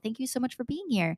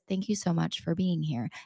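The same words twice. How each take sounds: First: It is said with high, lively energy. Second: It is said with low, flat energy.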